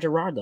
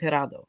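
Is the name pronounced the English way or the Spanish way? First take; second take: English; Spanish. First: The name is said with English-style sounds. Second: The name is said with Spanish-style sounds. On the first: This is how others mispronounce the name. The speaker calls it wrong. "His name is not Gerardo" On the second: This is the name as it truly is. The speaker calls it right. "His name is Gerardo"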